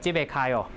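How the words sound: The voice falls at the end. It makes a statement. "a statement like that"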